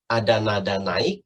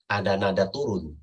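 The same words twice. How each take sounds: First: NAIK lifted upward at the end; low phrase climbing on "naik"; rising tone. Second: TURUN dropped downward at the end; low phrase falling on "turun". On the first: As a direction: start low and raise the pitch on "naik". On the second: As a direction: let the pitch fall away on "turun". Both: Shown as a demonstration.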